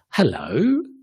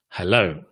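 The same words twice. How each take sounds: First: The pitch rises on the word. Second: The pitch falls on the word. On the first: "that's rising" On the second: "is falling"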